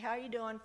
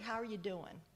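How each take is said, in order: First: It is asked quickly and casually, without real concern. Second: It is asked slowly and warmly, with real concern. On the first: It is a routine greeting with no real interest. The speaker calls it wrong. "Don't just say" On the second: The asker truly wants to know how the person is. The speaker calls it right. "Genuinely ask how they're doing"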